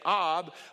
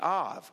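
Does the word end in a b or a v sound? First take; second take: b sound; v sound. First: The word ends with a b sound. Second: The word ends with a v sound. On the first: "instead of pronouncing it Ab" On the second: "in the Hebrew they pronounce it Av"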